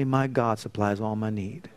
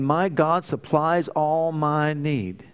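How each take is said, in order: First: Said in the usual way. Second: Slow, drawn-out declaration stressing each word of "My God supplies all my need"; emphatic repetition. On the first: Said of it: "Say with me". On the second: Shown as a demonstration. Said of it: "Say it again".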